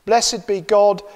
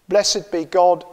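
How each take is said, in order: Both takes have the same delivery.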